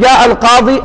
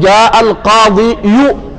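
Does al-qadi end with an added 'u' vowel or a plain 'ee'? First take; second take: plain ee; added u. First: The word ends in a plain long ee sound. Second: The word ends with an added yu sound. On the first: The speaker calls it right. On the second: The speaker calls it wrong.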